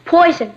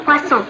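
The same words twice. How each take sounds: First: Poison said as the English word poison; mispronounced poisson. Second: Poisson said with a French s, pwa-SOHN; correct French. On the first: Girl joking about the menu, wrong English poison. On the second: Sister correcting the fish word, correct French poisson. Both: Shown as a demonstration. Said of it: "That's pronounced poisson".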